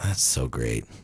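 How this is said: It sounds deadpan and bored.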